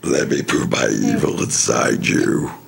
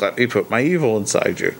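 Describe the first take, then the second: First: It is said in a Doctor Claw villain voice. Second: It is said in his normal reading voice.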